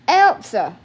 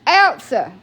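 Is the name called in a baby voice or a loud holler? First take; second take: holler; holler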